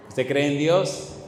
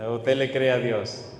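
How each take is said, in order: First: "cree en" stretched, slow rising question; stress on "cree en". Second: "le cree a" pitched lower, falling end; stress on "le cree a". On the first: Preacher tests congregation's belief in God, stress on "cree en". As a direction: draw out "cree en" and lift the end. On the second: Preacher offers congregation the deeper choice, stress on "le cree a". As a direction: drop into "le cree a" as the weightier choice. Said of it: "¿Cuál de los dos?". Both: Shown as a demonstration.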